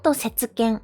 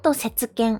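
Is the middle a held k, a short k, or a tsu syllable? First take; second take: tsu syllable; tsu syllable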